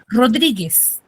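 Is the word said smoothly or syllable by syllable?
smoothly. The word is said smoothly without breaks. "ahí yo no estoy silabeando, estoy mencionando la palabra completa"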